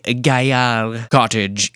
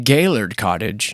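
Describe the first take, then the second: First: The name is said with a French pronunciation. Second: The name is said with an American pronunciation. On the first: "A more refined tongue would refer to as" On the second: "depends on if you're from America"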